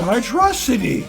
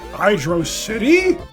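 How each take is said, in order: First: It is said as one single word. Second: It is said as two separate words. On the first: It is treated as one coined word. "because it's literally just one word" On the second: It names a city that is underwater. "I've always pronounced it Hydro City myself. It's like an underwater city"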